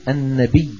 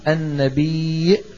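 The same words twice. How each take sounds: First: The word ends on a long vowel without a glottal stop. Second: The word ends with a glottal stop after the vowel.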